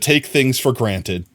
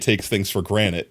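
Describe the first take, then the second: First: The last word is pronounced as granted. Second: The last word is pronounced as granite. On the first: The speaker calls it right. "I said it correctly on accident" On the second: The speaker calls it wrong. "I meant to say"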